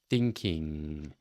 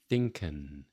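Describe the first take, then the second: First: It ends in a long, ringing nasal ng. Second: It ends in a plain n, without ringing. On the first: The speaker calls it right. "draw out that sound. See if you're getting that ringing nasally quality" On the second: The speaker calls it wrong. "with no nasal ring to it"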